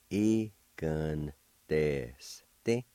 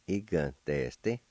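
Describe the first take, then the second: First: Very slow "Giganteste", broken into separate syllables. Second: "Giganteste" joined up, still measured; blended word demo. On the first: Teacher pronouncing word number one for learners, very slowly in syllables. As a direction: stretch out "Giganteste" piece by piece. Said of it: "like this". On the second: Teacher pronouncing word number one for learners, syllables joined up. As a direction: run the syllables of "Giganteste" together carefully. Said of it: "now I'll pronounce these words". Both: Shown as a demonstration.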